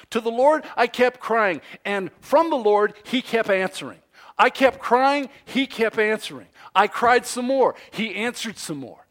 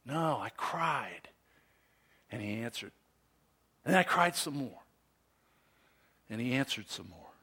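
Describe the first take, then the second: First: Loud, high, driving repetition; continuous back-and-forth. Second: Soft, with long pauses between phrases; hushed, spaced-out retelling. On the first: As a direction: keep the cries and answers coming, emphatically. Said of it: "It goes like this". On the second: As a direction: let each answer drop low and quiet. Slow retake of cries and answers. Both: Shown as a demonstration.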